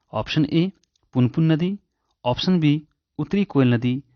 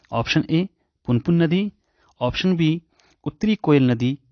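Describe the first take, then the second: No difference in how they are said.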